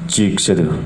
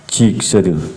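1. Gain yang dinaikkan dengan kompresi, sehingga levelnya tetap rata. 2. Hanya gain yang dinaikkan, tanpa kompresi pada suara. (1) "kombinasi antara gain dengan kompresor malah makin enak" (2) "Ini pakai gain naik"

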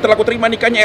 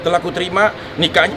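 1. Frasa berlanjut tanpa jeda setelah 'nikahnya'. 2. Frasa berhenti dengan jeda setelah 'nikahnya'. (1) "Langsung ... harus satu nafas" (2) "nggak boleh begitu"

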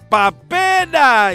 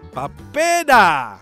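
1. Kata papeda diucapkan dengan keras. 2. Kata papeda diucapkan dengan volume normal.

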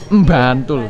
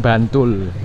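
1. Kata ini dimulai dengan m sebelum b. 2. Kata ini dimulai dengan bunyi b yang polos.

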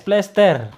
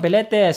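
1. P dan l menyatu, berakhir dengan r. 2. Ada vokal memisahkan p dan l, berakhir tanpa r. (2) "Bukan peletes"

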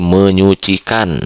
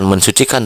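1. Kata ini justru ada bunyi 'ny'. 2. Kata ini ada 'n' diikuti 's'. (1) "tapi jadi menyucikan" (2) "Jadi bukan mensucikan"

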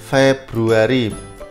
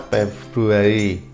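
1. Kata ini diawali bunyi f. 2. Kata ini diawali bunyi p.

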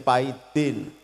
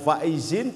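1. Dimulai dengan bunyi P. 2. Dimulai dengan bunyi F.

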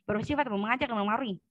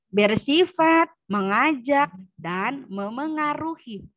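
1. Dibaca dengan bunyi kabur dan tidak jelas. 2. Dibaca pelan dengan setiap bunyi jelas. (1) "Itu enggak jelas" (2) "membacanya pelan, intonasinya bagus, lafalnya harus jelas"

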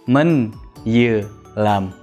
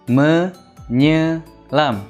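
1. n ve y ayrı sesler olarak söylenir. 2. ny, tek bir burun sesi olarak söylenir. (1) "Menyelam değil" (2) "Neye bizde nya diye söylenir"

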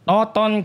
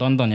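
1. Nama itu tidak ada n sebelum t kedua. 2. Nama itu ada n sebelum t kedua. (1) "Yang benar adalah Toton" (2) "Bukan tonton ya"

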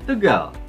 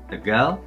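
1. Tegal berakhir dengan nada tinggi. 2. Tegal berakhir dengan nada sedang. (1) "Kalau misalnya mau mi juga nggak enak" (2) "Jadi harusnya Tegal, ... itu re-nya di situ"

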